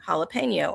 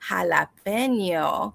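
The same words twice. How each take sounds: First: It is said with an English-style pronunciation. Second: It is said with a Spanish-style pronunciation. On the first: "I still would pronounce it like like anyone that didn't speak that foreign language would pronounce" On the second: "I don't say jalapeno"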